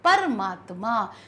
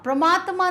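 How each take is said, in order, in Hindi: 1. शब्द स्पष्ट 'par' से शुरू होता है। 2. शब्द 'pra' संयुक्त ध्वनि से शुरू होता है। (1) "स्पष्ट रूप से पर का प्रयोग है" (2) "परमात्मा नहीं"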